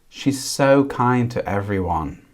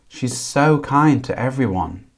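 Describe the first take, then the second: The two takes are said the same way.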